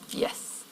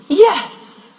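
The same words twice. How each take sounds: First: The word starts at a low, neutral pitch. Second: The word starts at a high pitch. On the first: The answer is neutral and unemotional. "Most neutral. Quite unemotional" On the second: The answer is more emotionally involved. "The higher the onset, the more emotionally involved"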